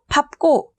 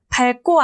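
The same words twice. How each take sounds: First: The first syllable ends in a p sound. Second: The first syllable ends in an l sound. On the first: The speaker calls it right. "리을이 아닌 비읍으로 발음한다" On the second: The speaker calls it wrong. "밟고 아니고"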